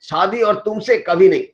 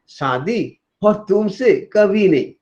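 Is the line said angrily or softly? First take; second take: angrily; softly. First: It is shouted in an angry tone. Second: It is said in a soft, sweet tone. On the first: The speaker flatly refuses to marry. "चिल्ला के बोल रहा है" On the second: The speaker is playfully teasing, not refusing. "वही soft वाला meaning बदल गया।"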